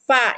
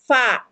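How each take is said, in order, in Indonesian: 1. Diawali dengan bunyi f, udara keluar. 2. Diawali dengan bunyi f, udara keluar.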